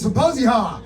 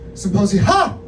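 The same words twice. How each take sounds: First: The final syllable is said flat and plain. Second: The final syllable is said as a loud exclamation. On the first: The speaker calls it wrong. "I'm actually I'm not saying it right" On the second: The speaker calls it right. "hyphen Ha exclamation point, which which would make that"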